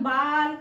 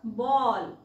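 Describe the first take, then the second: First: The vowel is an open aa sound. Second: The vowel is a rounded aw sound. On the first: The speaker calls it wrong. "आ का नाही वाचायचं" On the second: The speaker calls it right. "बॉलला बॉ का वाचायचंय"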